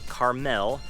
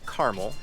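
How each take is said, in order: First: It is said unlike the candy caramel. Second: It is said like the candy caramel. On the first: This is how the California city is named. The speaker calls it wrong. "not Carmel. I know there's a city in California where they do pronounce it Carmel" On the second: This is how the local city is named. The speaker calls it right. "it's actually pronounced Carmel, ... here we pronounce it Carmel, just like the candy"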